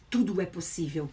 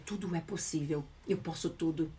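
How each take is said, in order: First: Said in the usual way. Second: Hushed, much softer and lower voice; gentle soft-spoken affirmation. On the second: Shown as a demonstration. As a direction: breathe it out softly like an inner certainty. Voicing how successful people talk.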